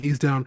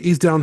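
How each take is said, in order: First: It is said softly and reassuringly. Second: It is said in a patronizing, talking-down way. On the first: The speaker is calming someone who is afraid. The speaker calls it right. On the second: The speaker is talking down to someone. The speaker calls it wrong.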